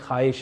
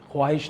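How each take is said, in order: First: The 'w' sound after 'kh' is silent. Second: The 'w' sound after 'kh' is pronounced. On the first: The speaker calls it right. "ख्वाहिश है" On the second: The speaker calls it wrong. "ख्वाहिश नहीं है"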